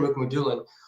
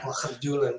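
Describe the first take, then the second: First: The name is said in an anglicized way. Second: The name is said in a Russian-style way. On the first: The speaker calls it wrong. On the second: The speaker calls it right.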